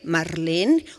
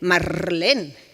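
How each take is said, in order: First: The r is a single quick tap. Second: The r is a rolled trill. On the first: "una vibrante" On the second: "una vibrante múltiple"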